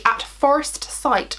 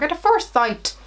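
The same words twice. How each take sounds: First: Said in the usual way. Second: "At a Forest Sight" in a playful Irish lilt, pitched up; a quick fun Irish accent on the product name; lightly put-on Irish accent, higher pitched; mock Irish accent. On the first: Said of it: "I always wanna say it like". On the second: Shown as a demonstration. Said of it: "I always wanna say it like an Irish accent".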